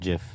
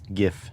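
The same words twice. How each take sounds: First: The word begins with a J sound. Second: The word begins with a hard G sound. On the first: The speaker calls it wrong. "GIF is uh GIF is peanut butter" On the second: The speaker calls it right. "GIF, not GIF"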